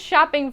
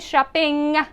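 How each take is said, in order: First: The final G sound is very quiet. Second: The final G sound is said clearly. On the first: The speaker calls it right. "That G is, it's there, but it's very quiet" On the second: The speaker calls it wrong. "I'm not going to say shopping"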